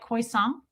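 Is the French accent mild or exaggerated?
mild. It has a half-hearted French accent.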